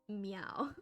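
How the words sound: The meow is said in a flat monotone.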